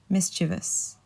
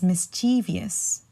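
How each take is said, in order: First: The word is said with three syllables. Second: The word is said with four syllables. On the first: The speaker calls it right. "but it's actually mischievous" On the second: The speaker calls it wrong. "usually I hear this being um, pronounced as mischievous"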